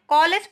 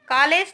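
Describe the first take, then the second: First: The first vowel falls between aa and o. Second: The first vowel is a plain, pure vowel. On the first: The speaker calls it right. "कॉलेज पढ़ते हैं ना" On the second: The speaker calls it wrong. "तो हम इसको पढ़ते नहीं हैं"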